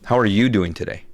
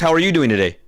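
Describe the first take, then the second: First: It is asked in a calm, sincere tone. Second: It is asked in an excited, bubbly tone.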